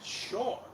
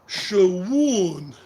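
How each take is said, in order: First: The name is said as one short syllable. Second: The name is stretched into two syllables. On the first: The speaker calls it right. "I'm sure his parents didn't name him Shawan. Sean" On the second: The speaker calls it wrong. "mispronouncing it Shawan"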